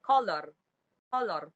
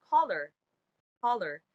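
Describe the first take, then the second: First: "color" with a full O, "ko-lor"; Philippine English pronunciation. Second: Said in the usual way. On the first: Shown as a demonstration. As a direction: say "color" as spelt, ending in "-lor". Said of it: "in the Philippine English". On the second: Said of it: "in standard English".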